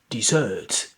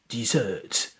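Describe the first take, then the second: First: The stress is on the last syllable. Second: The stress is on the last syllable.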